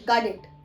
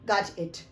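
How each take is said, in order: First: The t sounds like a d. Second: A short 'o' and a clear t. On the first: "वो बोलते हैं गॉड it" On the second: "आपको pronounce करना है क्या? गॉट।"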